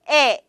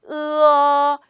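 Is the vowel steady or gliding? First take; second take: steady; gliding. First: A single steady 'eh' vowel is said. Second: The vowel glides from 'eu' to 'uh'. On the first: The speaker calls it wrong. "무조건 에, 에 이렇게 읽는 네, 나쁜 습관" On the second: The speaker calls it right. "으로 시작해서 입 모양이 어로 끝날 수 있게끔"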